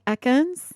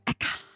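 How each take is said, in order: First: It is said in the speaker's normal voice. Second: It is said in an imitated character's voice.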